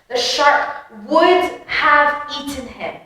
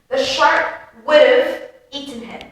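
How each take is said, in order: First: Would and have are said as separate full words. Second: Would and have are run together into one. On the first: "I've gone through the proper pronunciation of it" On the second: "the more natural pronunciation, which is with connected speech"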